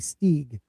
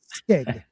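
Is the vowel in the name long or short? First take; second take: long; short. First: The vowel is a long ee sound. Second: The vowel is a short i sound. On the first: The speaker calls it right. "kind of like S T E E G" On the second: The speaker calls it wrong. "I say it like Stig, like stick almost, but with a G"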